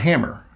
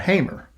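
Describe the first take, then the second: First: The first vowel sounds like 'ham'. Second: The first vowel sounds like 'hay'. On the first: The speaker calls it wrong. "They're not Hammer" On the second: The speaker calls it right. "they're Hamer"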